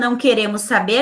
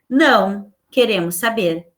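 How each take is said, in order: First: It runs on with no pause after não. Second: There is a short pause after não. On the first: We do not want to know anything. "não quero saber de nada" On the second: We do want to know. "o uso dessa vírgula... me faz o sentido que, que eu quero saber"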